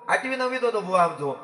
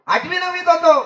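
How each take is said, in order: First: Said in the usual way. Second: Higher and louder, punching होतो; emphatic repeat. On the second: Shown as a demonstration. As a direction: lift the repeat up to the crowd. Storyteller repeats line for emphasis.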